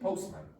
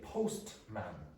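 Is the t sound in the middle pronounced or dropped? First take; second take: dropped; pronounced. First: The t sound in the middle is dropped. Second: The t sound in the middle is pronounced. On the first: The speaker calls it right. "I say postman" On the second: The speaker calls it wrong. "I do not say postman"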